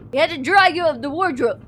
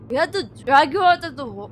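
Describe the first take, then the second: First: Said in the usual way. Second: Quick Indian accent attempt that breaks off. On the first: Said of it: "I can't do it". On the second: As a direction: try the Indian accent again, faster. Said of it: "that's an Indian accent".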